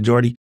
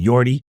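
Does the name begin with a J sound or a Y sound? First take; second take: J sound; Y sound. First: The name begins with a J sound. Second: The name begins with a Y sound. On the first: The speaker calls it wrong. "no J in the Netherlands" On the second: The speaker calls it right. "if I'm going to say it correct in Norland"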